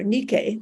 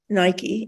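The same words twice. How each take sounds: First: It is pronounced the ancient Greek way. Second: It is pronounced the usual English way.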